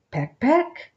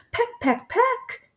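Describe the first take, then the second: First: Said in the usual way. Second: High chirpy pecks, last one leaping up; lightly voiced hen going peck peck. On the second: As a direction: play the hen pecking its rivals. Hens jostling on the perch.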